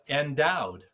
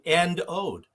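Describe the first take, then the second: First: It is said smoothly as one word. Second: It is split into two separate words. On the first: The speaker calls it wrong. "most people would pronounce that endowed. But it's a mispronunciation" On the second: The speaker calls it right. "that is actually end owed"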